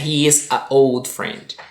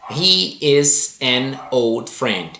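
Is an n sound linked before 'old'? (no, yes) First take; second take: no; yes. First: Two vowels meet with a choppy, stuttering break. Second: An n sound links the article to 'old'. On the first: The speaker calls it wrong. "ele soa um pouquinho mais gaguejado" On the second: The speaker calls it right. "Olha como a frase soa"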